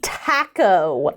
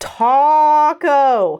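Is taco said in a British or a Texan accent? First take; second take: British; Texan. First: Taco is said in a British accent. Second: Taco is said in a Texan accent. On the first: The speaker calls it wrong. "the way British people say tacos" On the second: The speaker calls it right. "Say it with me, class"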